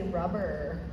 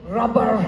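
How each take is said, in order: First: Said in an American accent with the final r. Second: Said in a Scottish accent with the final r. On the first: "Americans would say rubber" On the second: "if you're Scottish, you say rubber because you say the R on the end"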